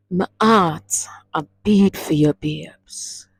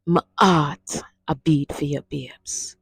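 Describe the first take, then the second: First: "babes" breathed out almost whispered; tender, passionate Patois line; with love and passion. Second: Softer tender repeat, "babes" near a whisper; with love and passion. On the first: Teacher showing the class how to say it to a lover, tender. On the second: Teacher repeating the love line softly for lovers. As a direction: murmur it to the one you love. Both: Shown as a demonstration. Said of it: "say it with that love and that passion".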